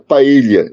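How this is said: It is said with a Spanish accent.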